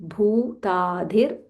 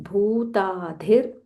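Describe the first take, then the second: The two takes are said the same way.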